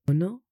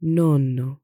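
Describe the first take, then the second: First: "Nono" with one short middle N; single consonant. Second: "Nonno" with the middle N held long, louder; double consonant. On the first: Teacher contrasts ninth with grandfather, short single N. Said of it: "which means ninth". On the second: Teacher shows grandfather as against ninth, long double N. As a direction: lengthen the N across both syllables of "Nonno". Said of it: "or lengthen the sound". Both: Shown as a demonstration.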